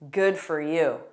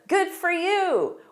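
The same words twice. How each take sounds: First: The tone is sarcastic and condescending. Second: The tone is warm and genuinely pleased. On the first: The speaker is not happy for the other person. "or very sarcastic and condescending" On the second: The speaker is happy for the other person. "this can be positive"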